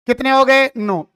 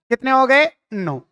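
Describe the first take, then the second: No difference in how they are said.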